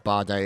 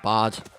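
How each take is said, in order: First: The final vowel is pronounced as 'ay'. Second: The final vowel is silent.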